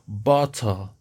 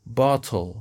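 First: It is said in a British accent. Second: The same.

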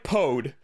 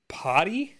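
First: The word is read as written, without a final 'ee'. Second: The word ends in an 'ee' sound, like 'potty'. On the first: This is how the name looks written down. The speaker calls it wrong. "It looks like Pode" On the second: This is how the name is actually pronounced. The speaker calls it right. "but it's pronounced potty"

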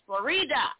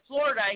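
First: It is said with a Spanish pronunciation. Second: It is said with an English pronunciation. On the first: The speaker calls it right. "It's named after a Spanish flower. It's pronounced Florida" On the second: The speaker calls it wrong. "I said, Florida. He's like, no"

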